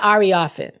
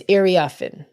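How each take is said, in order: First: "Ariafin" with an opening AR sound, as in car; wrong name pronunciation. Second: "Iriafin" opening on an EER sound; corrected name pronunciation. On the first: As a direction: say "Ariafin" as AR-ee-ah-fin. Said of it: "It's not Ariafin". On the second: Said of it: "It's Iriafin". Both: Shown as a demonstration.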